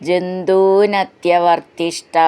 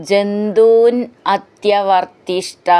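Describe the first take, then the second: No difference in how they are said.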